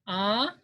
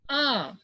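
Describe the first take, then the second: First: The pitch rises upward. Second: The pitch dips down, then rises. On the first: "this is upward" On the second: "down, downward, and then upward"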